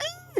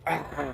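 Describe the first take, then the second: First: It is a plain, ordinary scream. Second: It is a gnarly, furious scream.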